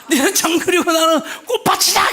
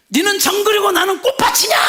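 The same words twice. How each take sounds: First: Repeated retort, laughing while yelling; wife's retort, half laughing; shout through laughter. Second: High, loud furious shout; wife yelling back at her husband, mock furious; wife's shout. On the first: Retold or imitated. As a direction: crack up mid-yell. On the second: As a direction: hurl it back at him. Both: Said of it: "이렇게 나가요".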